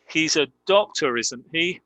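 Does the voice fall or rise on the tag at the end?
rise. The voice rises on the final tag. The speaker really wants to know the answer. "With rising intonation, that is a real question"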